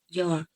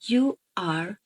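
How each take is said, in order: First: The words merge into one contracted syllable. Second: Both words are said fully and separately. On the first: "Because the vowel of a is removed" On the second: "you are becomes your"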